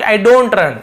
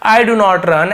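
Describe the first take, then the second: First: The negative is contracted into one syllable. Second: The negative is said in full as two words. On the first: "short में ऐसे आई डोंट" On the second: "ऐसे ना बोल के"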